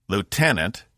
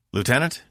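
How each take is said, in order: First: LIEUTENANT with firm falling tune; firm repeated call. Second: LIEUTENANT higher, with rising tune; questioning call. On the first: He calls staring Laura to attention, LIEUTENANT falling firmly. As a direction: call LIEUTENANT to order, pitch dropping. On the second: He calls to blank-faced Laura, LIEUTENANT rising questioningly. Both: A narrator's reading.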